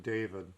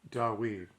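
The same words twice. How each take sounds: First: Said in the usual way. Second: "Dawid" as dah-WEED, stressed and clear; Dawid with W sound. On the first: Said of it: "it's printed David". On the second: Shown as a demonstration. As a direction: say "Dawid" with a W in the middle, not a V. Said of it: "it's Dawid because it's spelled with a U sound".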